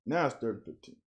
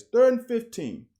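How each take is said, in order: First: Said in the usual way. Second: Much higher, louder, third stressed hard; exasperated outburst. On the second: Real, not acted. Coach reviewing film blurts out the down, exasperated shout. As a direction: cry out the down in disbelief.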